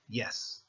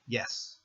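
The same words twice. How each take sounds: No difference in how they are said.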